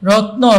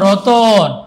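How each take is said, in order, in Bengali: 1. t ও n জোড়া লেগে আছে, মাঝে কোনো স্বর নেই। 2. t ও n-এর মাঝে একটি স্বরধ্বনি ঢোকানো হয়।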